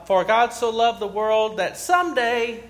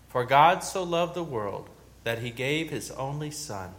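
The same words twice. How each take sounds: First: "someday" leaned on, higher and louder; "someday" lands as a pointed joke word; mock stress on someday. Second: Said in the usual way. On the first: Shown as a demonstration. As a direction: twist the verse by punching "someday". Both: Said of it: "God doesn't say someday".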